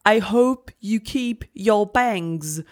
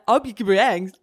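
First: The phrase is said very slowly and deliberately. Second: The phrase is said at a normal quick pace.

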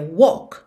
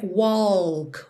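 First: It is said without any L sound. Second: It is said as spelled, with an L sound. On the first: The speaker calls it right. "é walk" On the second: The speaker calls it wrong. "a gente não fala como se lê, não é walk"

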